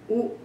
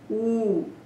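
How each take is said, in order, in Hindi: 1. स्वर को थोड़े समय तक बोला जाता है। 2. स्वर को दुगुने समय तक बोला जाता है। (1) "ये चार ह्रस्व भी हो सकते हैं" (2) "इससे दुगने बड़े भी हो सकते हैं"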